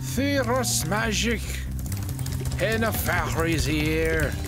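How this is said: It is said in an attempted Scottish accent.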